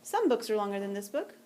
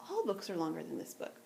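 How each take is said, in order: First: Some leaned on lightly to set up the contrast; stress on some. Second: All stressed, the line falling quieter; all picked out as the key word. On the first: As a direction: hit the word some. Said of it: "it's a stronger statement". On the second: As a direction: lean on all to show the stronger claim. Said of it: "that's not the negation". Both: Shown as a demonstration.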